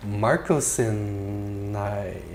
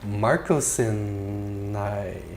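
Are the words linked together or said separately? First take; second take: linked; linked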